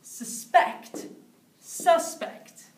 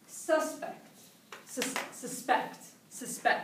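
First: Suspect sus-PECT then suspect SUS-pect; suspect: verb stress on second, noun on first. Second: Suspect whispered, stress on -SPECT; unvoiced suspect, stress on the second syllable. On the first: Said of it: "Suspect as a verb and suspect as a noun". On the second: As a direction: breathe the word suspect. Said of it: "the next one is". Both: Shown as a demonstration.

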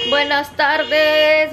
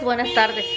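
First: Slow, stretched-out buenas tardes; "Buenas tardes" stretched long and melodic; sing-song greeting. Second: Said in the usual way. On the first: Real, not acted. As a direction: draw out the greeting playfully. Drawn-out greeting to camera.

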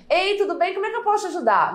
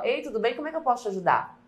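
First: Higher, fast, eager little voice; fragile, girlish voice. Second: Said in the usual way. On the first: Shown as a demonstration. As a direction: sound timid and small, head tilted. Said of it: "Olha como é que eu pareço mais frágil". (voz frágil e boba, mais aguda e rápida) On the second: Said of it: "Não é aqui, ó".

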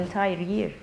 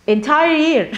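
First: Said in the usual way. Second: "Entire year" set apart, higher and emphatic; emphatic repeat. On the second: Real, not acted. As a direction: drive home "entire year" with raised pitch.

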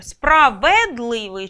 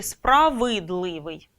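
First: "Справедливий" slowly, with a stressed-sounding clear е after в; е variant. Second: "справидливий" slowly, with a clear и after в; и variant. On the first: Teacher posing a spelling doubt, "Справедливий" drawn out with е. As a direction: say "Справедливий" with an exaggerated ве. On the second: Teacher posing a spelling doubt, "справидливий" drawn out with и. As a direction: say "справидливий" with an exaggerated ви. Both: Shown as a demonstration. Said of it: "Поки що сумніваємось".

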